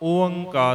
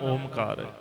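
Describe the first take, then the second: First: Separate o and a vowels come before the nasal. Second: A clear m sound comes before kar. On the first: The speaker calls it right. "ਓਅੰਕਾਰ ਹੈ" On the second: The speaker calls it wrong. "ਨਾ ਓਮਕਾਰ"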